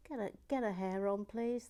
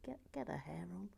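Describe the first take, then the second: First: Said in the usual way. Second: A soft unvoiced whisper to herself. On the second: Real, not acted. Whispering to the minifigure while fitting its hair. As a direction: breathe it under her breath. First take whispered, then repeated aloud.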